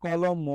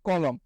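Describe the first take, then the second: First: কলম with an অ sounded after the final ম; wrong pronunciation. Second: কলম said closed, no অ after the final ম; correct pronunciation. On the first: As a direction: say কলম as if it ends in an extra অ. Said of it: "আমরা তো উচ্চারণের সময় বলি না". (কলম, শেষের ম-এ অ যোগ করে) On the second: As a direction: stop কলম right on the ম. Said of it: "আমরা কি বলি?". (কলম, শেষে অ ছাড়া) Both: Shown as a demonstration.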